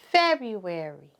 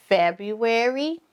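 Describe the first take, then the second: First: February with a settled falling tune; falling answer. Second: February with a rising questioning tune; rising call. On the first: Teacher answering her own prompt, falling. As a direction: bring February down to close it. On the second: Teacher prompting the class to repeat, rising. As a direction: sing February up at the end like a prompt. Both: Shown as a demonstration. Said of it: "Let's say the months of the year together".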